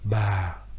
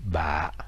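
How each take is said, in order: First: The syllable is said with a low falling tone. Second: The syllable is said with a very low heavy tone. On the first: "avec un accent grave" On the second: "avec un accent très grave"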